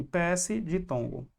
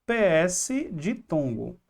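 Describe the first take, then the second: First: P S de tongo repeated softer, a bit slow; calm restatement. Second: P S de tongo said slowly, letter by letter; spelled out slowly. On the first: Teacher repeating the mnemonic to students, softer. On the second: Teacher dictating the mnemonic to students, slowly. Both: Shown as a demonstration. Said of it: "Vamos botar só assim".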